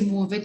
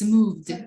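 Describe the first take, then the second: First: The ending is said with an extra vowel sound. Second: The ending is a plain consonant, no vowel. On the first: The speaker calls it wrong. "Don't say move it" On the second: The speaker calls it right. "it's moved"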